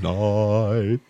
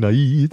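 First: The word is said in an affected, crooning style. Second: The word is said in a plain, ordinary way. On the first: The speaker calls it wrong. "those singers that sing like this. ... I'll say night" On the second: The speaker calls it right. "I won't say night"

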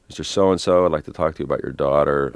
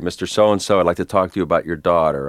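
First: It sounds tentative, like feeling a way through. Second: It sounds purposeful, like really trying to persuade.

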